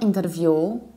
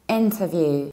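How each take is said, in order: First: The middle syllable is said as a full ter. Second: The middle syllable is reduced to a short t. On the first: The speaker calls it wrong. "It's not interview" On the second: The speaker calls it right. "You pronounce int and you reduce t. You don't have te or ter"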